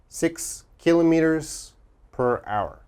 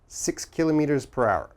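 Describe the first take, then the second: First: It is said at a slower, careful pace. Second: It is said at a faster pace.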